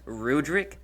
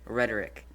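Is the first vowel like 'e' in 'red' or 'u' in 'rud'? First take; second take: u in rud; e in red. First: The first vowel sounds like 'u' in 'mud'. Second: The first vowel sounds like 'e' in 'red'. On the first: It follows the name's spelling. "It's R U D R I C. It's Rudrick" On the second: It follows the author's own pronunciation. "he says rhetoric"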